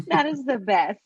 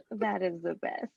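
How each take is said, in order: First: Laughing through the words. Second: Said in the usual way. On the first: Real, not acted. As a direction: say it while laughing.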